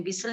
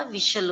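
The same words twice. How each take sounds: First: विशल said with a plain s sound, vishal as visal; wrong pronunciation. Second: विशल said with a clear sh sound, vishal; correct pronunciation. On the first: Teacher showing pupils the wrong way: विशल with s. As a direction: show the common mistake: विशल with s not sh. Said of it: "जैसे कई लोग विशल भी बोलते हैं". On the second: Teacher correcting pupils: विशल with a clear sh. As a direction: model the right way: विशल with sh. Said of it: "विशल होता है". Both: Shown as a demonstration.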